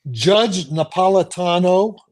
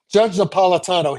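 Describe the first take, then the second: First: Name said slowly and firmly; slow, careful dictation of a name; deliberately slow. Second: Said in the usual way. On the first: Shown as a demonstration. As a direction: spell the name out by ear, drawn out. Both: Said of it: "I'll say it slowly".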